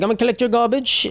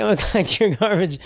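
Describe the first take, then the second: First: Put-on higher British tour guide accent; mock British lady. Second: A hint of British accent, laughing through; laughing British lady. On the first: Imitating the British tour lady on the bus, British accent. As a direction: play the British lady collecting garbage. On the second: Retelling the tour lady's line while laughing, British accent. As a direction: imitate the tour lady, cracking up. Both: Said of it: "like, British for some reason".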